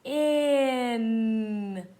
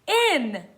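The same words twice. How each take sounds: First: "In" stretched out with long held sounds; read slowly. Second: Said in the usual way. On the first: Shown as a demonstration. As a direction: blend "In" very slowly. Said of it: "Let's read it slowly". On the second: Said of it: "put it together to read the word".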